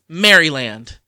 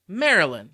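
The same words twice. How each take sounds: First: Each part of the word is said in full. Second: The word is said in a shortened, reduced form. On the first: This is how the name is written. "It's spelled Maryland" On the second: This is how people actually say the name. "But we say Maryland"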